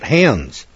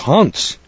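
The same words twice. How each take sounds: First: It is said with an American English pronunciation. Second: It is said with a German pronunciation. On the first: The speaker calls it wrong. "here in America, we call that Hans" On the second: The speaker calls it right. "He corrected me right on the spot"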